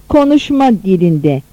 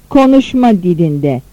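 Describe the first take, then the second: No difference in how they are said.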